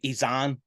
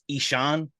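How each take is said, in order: First: The middle consonant is a z sound. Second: The middle consonant is a sh sound. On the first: "I always pronounce his name Izan" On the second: "the real pronunciation is Ishan"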